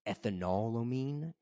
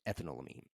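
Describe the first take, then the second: First: It sounds like ethanol followed by amine. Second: It does not sound like ethanol plus amine. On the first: Others say it this way. "I've heard it pronounced ethanolamine because it's like ethanol and then amine" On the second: This is the speaker's own easier way. "it's easier for me to pronounce it ethanolamine"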